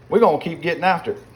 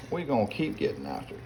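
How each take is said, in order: First: "we're gonna keep getting after it" called out louder and higher, a bit fast; pumped-up call. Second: "We're gonna keep getting after it" dropped much softer, an under-the-breath repeat; quiet echo. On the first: A cook hyping himself over the pot, loud and eager. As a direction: fire it up to the camera with a rising call of "getting after it". Cheering himself on while cooking. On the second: A cook repeating it to himself over the pot, softly. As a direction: say it again to yourself, softly. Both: Real, not acted.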